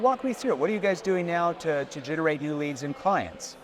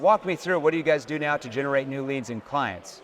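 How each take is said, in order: First: It sounds genuinely curious and interested. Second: It sounds flat and read from a script.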